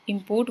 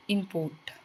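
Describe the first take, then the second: First: "import" stressed on the first syllable, IM-port; noun stress. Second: "import" stressed on the second syllable, im-PORT; verb stress. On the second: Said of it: "versus verb". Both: Shown as a demonstration.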